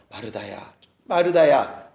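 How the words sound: The name is called in a warm, loving way.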